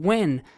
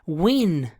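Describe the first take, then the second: First: The vowel sounds like the e in bed. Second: The vowel sounds like the i in bit.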